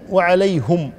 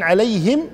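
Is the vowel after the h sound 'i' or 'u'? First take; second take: u; i. First: The h is followed by a u vowel. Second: The h is followed by an i vowel. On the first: "بضم الهاء" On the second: "إما بكسر الهاء"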